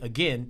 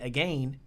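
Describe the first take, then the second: First: The second syllable rhymes with ten. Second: The second syllable rhymes with rain. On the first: "if you say again, you can't say rain" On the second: "you can say again that rhymes with rain"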